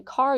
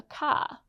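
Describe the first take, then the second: First: Said in the usual way. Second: "car" said as "cah", no R at the end; non-rhotic "car", New England style; dropped R. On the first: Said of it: "R sound is dropped". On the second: Shown as a demonstration. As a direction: end "car" on an open ah vowel. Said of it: "R sound is dropped at the end".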